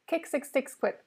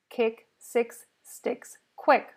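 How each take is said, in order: First: The phrase is said at a faster pace. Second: The phrase is said at a slower pace.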